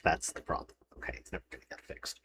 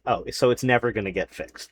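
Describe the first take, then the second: First: Whispered, much softer resigned aside; muttered under breath. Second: Said in the usual way. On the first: Real, not acted. Resigned to the insurance portal, whispering under breath. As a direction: mutter it to yourself, giving up.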